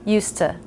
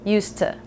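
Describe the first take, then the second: The two takes are said the same way.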